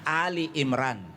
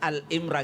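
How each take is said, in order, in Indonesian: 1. Nama ini diawali dengan dua suku kata Ali. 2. Nama ini diawali dengan suku kata pendek Al. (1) "Iya, jadi bukan Al-Imran" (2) "bukan Al-Imran ya"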